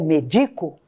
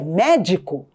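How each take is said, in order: First: The stress is on the second syllable. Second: The stress is on the first syllable. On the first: It is the verb meaning I medicate. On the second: It is the noun meaning doctor.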